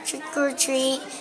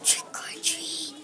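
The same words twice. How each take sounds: First: It is said a little louder. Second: It is said very softly.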